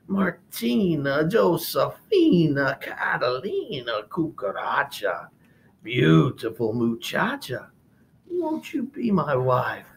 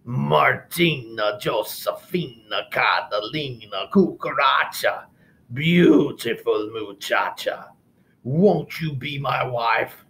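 First: Slow wavering sung proposal from a lizard; sung, warble it on one knee, lovesick; a lizard crooning the same serenade, wobblier; sung, warbled serenade. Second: Slow crooned love song from a pig; a pig serenading with sung words; sung serenade. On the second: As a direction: sing it like a greasy suitor. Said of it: "licked his chops and sang". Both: Acted.

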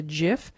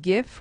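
First: "gif" said as "jif"; soft-g pronunciation. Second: "gif" said with a hard G; hard-g pronunciation. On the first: Teacher shows how some people say it, "gif" as "jif". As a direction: say "gif" with a soft J sound at the start. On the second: Teacher names the file type for learners, "gif" with hard G. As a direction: say "gif" with G as in gift. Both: Shown as a demonstration. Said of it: "some people will pronounce this as".

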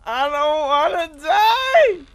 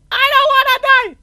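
First: Slow, high, crying wail of panic; drawn-out wail. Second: Very high, loud, quick scream; panicked scream. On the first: Player begging to live in a horror game, long wail. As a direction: wail it out, rising high and loud at the end. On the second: Player begging to live in a horror game, shrieked. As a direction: scream it all out in terror. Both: Real, not acted.

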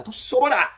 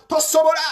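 First: TOSOBOLA said firmly, high pitch; emphatic statement. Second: TOSOBOLA hammered out loud and very high; emphatic repetition. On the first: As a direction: drive home "Tosobola" in a raised pitch. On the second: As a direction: repeat "Tosobola" forcefully, pitch right up. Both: Real, not acted. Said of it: "Kino nkiddamu".

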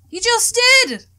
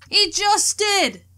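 First: High, loud outburst; excited shout. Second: Drawn-out, slow stress on HE; slow emphatic repeat. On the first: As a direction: cut in, pointing it out loudly. Friend points out dad's greeting. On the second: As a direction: stretch every word to insist. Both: Acted.

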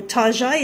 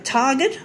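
First: "Target" said "Tar-zhay", French style, mocking; mock posh Tarzhay. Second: Said in the usual way. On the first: Shown as a demonstration. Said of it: "Australians like to make the fun out of". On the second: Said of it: "or Target as".

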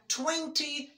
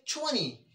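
First: Twenty with a clear T, slowly; wrong pronunciation. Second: Twenty as twenny, T silent; twenty with a double N; British pronunciation. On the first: Teacher showing the wrong way, twenty with its T. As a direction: demo twenty, T sounded. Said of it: "that's wrong". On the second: Teacher showing the right way, twenty without the T. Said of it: "I'll say twenty". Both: Shown as a demonstration.

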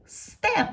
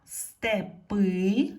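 First: Степ with a high, loud Е that falls; stressed Е. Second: Степи with the final И stressed, loud and rising; stress on last syllable. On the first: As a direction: punch the single Е in Степ. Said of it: "е стала наголошеною". (сильний наголос на Е у слові Степ) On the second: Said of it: "щоб не наголошена е стала наголошеною". (наголос на И в кінці слова Степи) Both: Shown as a demonstration.

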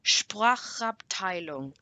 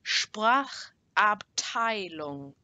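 First: Said in the usual way. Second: Very slow, broken into separate parts; slower. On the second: Shown as a demonstration. Teacher models the S P word for learners, slower. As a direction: stretch each part out for learners. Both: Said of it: "I'll say it a bit slower".

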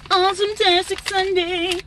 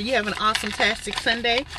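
First: High sing-song. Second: Said in the usual way. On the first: Shown as a demonstration. Repeats greeting in high sing-song.

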